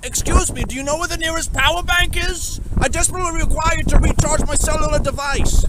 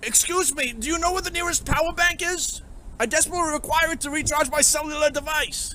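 First: High, loud hammed-up courtly voice; squeaky formal role-play voice; posh game character. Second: High, courtly voice but not loud; squeaky formal NPC voice; posh game character. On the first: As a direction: play an overdone polite NPC asking for help. Put-on high loud NPC voice. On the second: Acted. NPC voice repeated, less loud.

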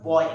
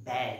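First: Put-on বয় said as plain boy; wrong pronunciation demo. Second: ব্যয় said with an open e, bae; correct pronunciation demo. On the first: Teacher shows the sound of ব্যয় to avoid. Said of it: "এভাবে করি না". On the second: Teacher gives the real sound of ব্যয়. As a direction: model ব্যয় with the অ্যা vowel. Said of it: "আমরা উচ্চারণ করছি". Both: Shown as a demonstration.

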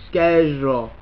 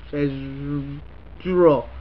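First: Said in the usual way. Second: Schedule stretched out slowly, low; schedule spelled out very slowly; slow drawn-out schedule. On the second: Shown as a demonstration. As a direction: drag out every sound of schedule. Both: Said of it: "Here's the word".

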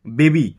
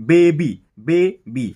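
First: Said in the usual way. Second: "baby" stretched slowly as "বে ... বি"; slow, emphatic two-beat "baby"; slow syllable split. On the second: Shown as a demonstration. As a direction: stop after "বে", then land on "বি". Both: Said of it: "বলে একবার থামছি".

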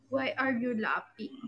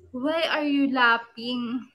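First: Said in the usual way. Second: Very slow, stretched mock interrogation; drawn-out questioning. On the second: Host confronting a laughing viewer, drawn-out questioning. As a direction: stretch each word out slowly.

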